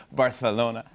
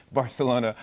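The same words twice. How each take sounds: First: Barcelona with a lisped th sound, Barthelona; Spanish lisp. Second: Barcelona with a plain English s; American pronunciation. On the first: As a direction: say Barcelona with a Castilian th. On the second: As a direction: say Barcelona with an s sound. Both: Shown as a demonstration.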